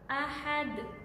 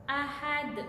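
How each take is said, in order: First: The final consonant ends with an echoing bounce. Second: The final consonant ends with an echoing bounce.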